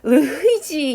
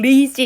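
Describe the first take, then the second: First: An h sound is heard in the suffix. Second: No h sound is heard in the suffix. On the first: The speaker calls it wrong. "이렇게 읽으시면 안 되고" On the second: The speaker calls it right. "H는 묵음이죠"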